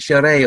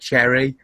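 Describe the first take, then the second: First: The word is said with a foreign pronunciation. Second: The word is said with an English pronunciation. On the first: This is the original name of the drink. "the actual original uh, French saying of it, which was like sherry" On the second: This is the simplified name English speakers use. "So we just said cherry"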